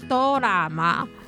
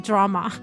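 First: It has Japanese syllables with a vowel after d. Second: It has an English dr cluster with no added vowel. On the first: "戏剧的日文要怎么说呢？" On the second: "其实这个原本就是英文，"

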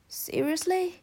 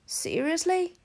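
The two takes are said the same way.

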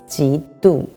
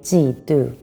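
First: The first syllable has a rising second tone. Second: Both syllables have a falling fourth tone. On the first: This is the standard dictionary form. The speaker calls it right. "actually it's 嫉妒 The first one is second tone" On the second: This is the everyday form used in Taiwan. The speaker calls it wrong. "in Taiwan, we say 嫉妒 Both.Fourth tone"

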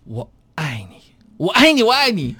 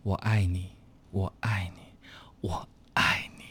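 First: It starts slow and gets faster toward the end. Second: It starts fast and gets slower toward the end.

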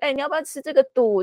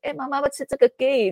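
First: It ends with the Bunun-style particle 'du'. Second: It ends with the Atayal-style particle 'gay'.

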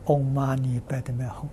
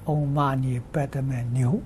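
First: The last syllable is pronounced hong. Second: The last syllable is pronounced niu. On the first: The speaker calls it right. "念六字大明咒" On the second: The speaker calls it wrong. "但他念错了，他念唵嘛呢叭咪牛"

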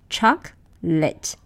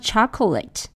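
First: The word is said with two syllables. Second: The word is said with three syllables. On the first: The speaker calls it right. "Native speakers pronounce this word with two syllables" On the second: The speaker calls it wrong. "Some of my students tend to pronounce this word with three syllables"

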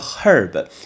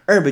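First: The word begins with an audible h sound. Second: The word begins with no h sound. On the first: The speaker calls it wrong. "很多人会念herb" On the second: The speaker calls it right. "那H 是不发音"

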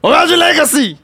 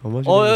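First: It is shouted loudly and forcefully. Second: It is said timidly and quietly.

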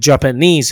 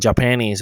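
First: The stress is on the last syllable. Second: The stress is on the first syllable. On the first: The speaker calls it right. "重音在n 了" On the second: The speaker calls it wrong. "不要念成Japanese 哦"

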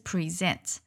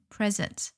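First: The stress is on the second syllable. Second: The stress is on the first syllable. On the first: It is the verb meaning to give or to show. "动词的话，它的重音是在后面" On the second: It is the adjective meaning current or in attendance. "重音在前面"

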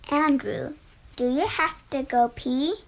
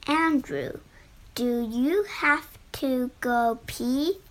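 First: It is said at normal speed. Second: It is said very slowly and clearly.

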